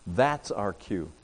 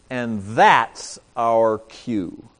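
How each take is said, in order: First: Softer, slower echo of "That's our cue"; hushed repeat of the point; quiet repeat. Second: Slow, weight on "that's"; deliberate punchline; slow emphatic. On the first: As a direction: let it sink in quietly. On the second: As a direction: land "and that's our cue" slowly. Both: Shown as a demonstration.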